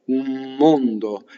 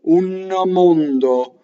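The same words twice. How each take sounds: First: The n becomes m, joined smoothly to mondo. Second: A clear n, then a short extra vowel. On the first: The speaker calls it right. "the N becomes an M... you're going to put your lips together" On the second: The speaker calls it wrong. "if I put my N inside my mouth... it causes this shadow vowel"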